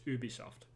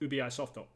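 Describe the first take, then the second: First: Said as one smooth word, no added vowel. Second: Split in two, with an added final vowel. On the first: This is how it is said in France and Montreal. "like in France, though, it's Ubisoft" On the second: The first part is treated like an abbreviation. "you go to Japan, it's completely different. It's ubi softo"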